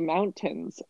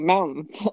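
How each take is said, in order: First: The T is pronounced clearly, with two full syllables. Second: The T is barely pronounced, with a quick N. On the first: This is how people elsewhere say it. "we don't say mountains" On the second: This is how people in Colorado say it. "we say mountains"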